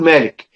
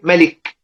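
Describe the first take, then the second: First: The first vowel is long. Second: The first vowel is short. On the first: "بالالف المد" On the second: "بحذف الالف"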